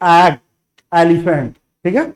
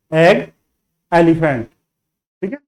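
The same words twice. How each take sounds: The two takes are said the same way.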